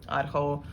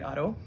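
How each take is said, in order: First: The d is followed by a breathy h. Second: The d has no breathy h after it.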